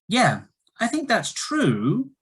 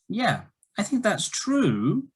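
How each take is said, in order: No difference in how they are said.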